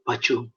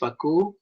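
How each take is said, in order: First: The middle consonant is a ch sound. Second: The middle consonant is a k sound. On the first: This is how people in Malaysia call the fish. The speaker calls it wrong. "Kat Malaysia orang panggil pacu" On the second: This is the proper pronunciation of the fish name. The speaker calls it right. "should be pronounced as paku"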